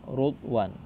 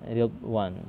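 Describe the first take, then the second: First: The first vowel is a 'u' sound. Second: The first vowel is an 'i' sound. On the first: This is a minority variant reading. "dengan uh, dhammah pada pada huruf ra" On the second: This is the majority reading. "dengan mengkasrahkan ra"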